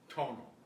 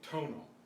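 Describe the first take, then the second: First: The T has an English-style puff of air. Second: The same.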